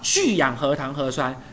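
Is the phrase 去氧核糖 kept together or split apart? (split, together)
together. 去氧核糖 is grouped as one unit before 核酸. The speaker calls it right. "以去氧核糖为原料所产生聚合成的核酸"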